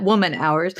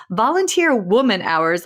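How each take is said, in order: First: "woman" lifted and rising, "hours" light; stress on woman. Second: "volunteer woman hours" with weight on "woman"; stress on woman hours. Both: Real, not acted. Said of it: "Let's own that".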